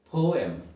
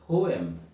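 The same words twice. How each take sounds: The two takes are said the same way.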